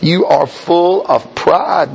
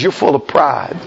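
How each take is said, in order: First: Slow, every word of "You are full of pride" set apart; "You are full of pride" word by word, heavily stressed; emphatic repeat. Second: Said in the usual way. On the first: Acted. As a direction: drive home FULL and PRIDE, drawn out.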